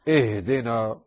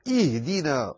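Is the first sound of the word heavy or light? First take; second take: heavy; light. First: The opening hamza is heavy and thick. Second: The opening hamza is light and thin. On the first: The speaker calls it wrong. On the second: The speaker calls it right.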